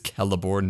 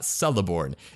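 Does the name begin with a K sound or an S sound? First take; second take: K; S. First: The name begins with a K sound. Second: The name begins with an S sound. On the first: The speaker calls it right. "C always has the value of K" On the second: The speaker calls it wrong. "not Celeborn"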